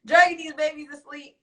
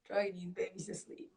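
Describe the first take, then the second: First: High, loud outburst; loud exclamation. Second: Very soft repeat at normal pitch; under the breath. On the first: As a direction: exclaim it in disbelief, pitched up high. Incredulous exclamation, then repeated low. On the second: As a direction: say it quietly, almost to yourself. Same words repeated under breath. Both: Real, not acted.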